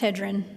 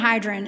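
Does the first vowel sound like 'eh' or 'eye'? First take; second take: eh; eye. First: The first vowel sounds like 'eh'. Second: The first vowel sounds like 'eye'. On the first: The speaker calls it right. "It's hedron" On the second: The speaker calls it wrong. "I'm saying hydron"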